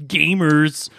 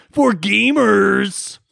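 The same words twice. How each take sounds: First: Said in the usual way. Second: Four gamers, slow, high and louder; drawn-out gamers. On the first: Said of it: "They're board gamers". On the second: Shown as a demonstration. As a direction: stretch out four gamers dramatically. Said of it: "Calm down".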